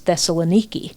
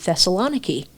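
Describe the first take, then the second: First: It is pronounced the way Greeks say it. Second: It is pronounced the usual American way. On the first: The speaker calls it right. "It's Thessaloniki" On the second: The speaker calls it wrong. "here in America we pronounce the city Thessaloniki"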